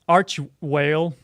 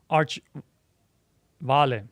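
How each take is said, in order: First: The second word begins with a W sound. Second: The second word begins with a V sound. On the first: The speaker calls it wrong. "I'm saying it like you know, it's a it's a whale" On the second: The speaker calls it right. "but it is Arch Vale"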